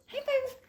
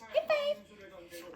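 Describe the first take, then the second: First: 하이파이브 high, quick fall; short high command. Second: 하이파이브 sung high and slow, falling; high drawn-out command. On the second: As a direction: stretch 하이파이브 high then fall. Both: Shown as a demonstration. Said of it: "하이파이브 repeated command".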